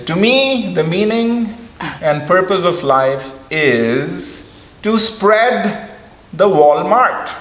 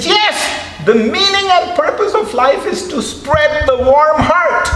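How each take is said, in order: First: Slow, high imitation with an accent that sounds like Walmart; His Holiness's accent. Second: High, loud imitation of His Holiness; His Holiness clarifying. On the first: His Holiness saying warm heart in his accent, slow and high. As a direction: draw out spread the Walmart, high. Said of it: "And then he says". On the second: His Holiness explaining again to the puzzled audience, high and loud. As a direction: repeat warm heart clearly, high.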